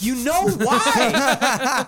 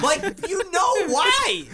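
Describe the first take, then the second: First: High, loud, drawn-out retort; exasperated outburst. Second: Very high, strained, drawn-out yell; exasperated yell. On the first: Retelling his confrontation with the roommate, exasperated outburst. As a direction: accuse him in a raised, stretched-out voice. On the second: Repeating the accusation to the roommate, escalated exasperated yell. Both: Retold or imitated.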